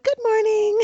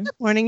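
First: It is said at a higher, chipper pitch. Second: It is said at a lower, normal pitch.

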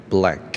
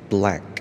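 The two takes are said the same way.

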